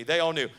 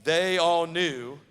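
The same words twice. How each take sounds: First: Said in the usual way. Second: Very slow, loud, stress on "all"; drawn-out repeat. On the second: Shown as a demonstration. Preacher leading the congregation in a call-and-response, drawn-out and loud. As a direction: lean on "all" and drag it out. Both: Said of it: "Say that with me".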